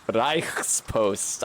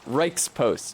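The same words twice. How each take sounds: First: It is said in a put-on character accent. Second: It is said in the speaker's normal accent.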